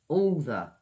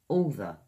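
Both takes have the same delivery.

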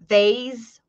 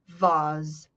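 First: The word is said in a North American accent. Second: The word is said in a British accent. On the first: "North American pronunciation" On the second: "British pronunciation"

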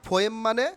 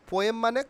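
The two takes are said the same way.

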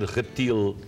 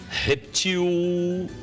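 First: The final L is a clear consonant L. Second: The final L is vocalized like a W sound. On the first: The speaker calls it right. "deveria ser reptil" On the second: The speaker calls it wrong. "observe que não houve o obstáculo. Então, está errado"

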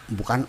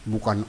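No difference in how they are said.

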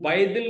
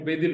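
First: The first vowel is pronounced as 'ai'. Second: The first vowel is pronounced as plain 'e'. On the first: The speaker calls it wrong. "अब वो बाएदिल नहीं होगा" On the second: The speaker calls it right. "वो बेदिल होगा"

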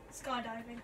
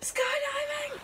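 First: It is said at a normal volume. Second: It is shouted loudly.

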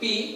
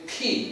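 First: The P is said without a puff of air. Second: The P is said with a strong puff of air. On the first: The speaker calls it wrong. "আমরা বলি পি" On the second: The speaker calls it right. "এটা প্রেশারের সাথে উচ্চারণ করতে হবে ফি"

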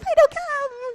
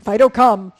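First: It is said in a high, happy voice. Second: It is said in a stern, flat voice.

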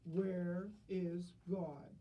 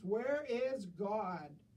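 First: It is said more sternly and louder. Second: It is said very loudly and sternly.

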